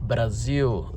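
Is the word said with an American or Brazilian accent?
Brazilian. It is said with a Brazilian accent. "when I said Brazil"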